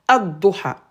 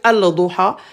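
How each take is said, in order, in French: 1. Le L se fond dans un son d doublé. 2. Le L de l'article se prononce clairement.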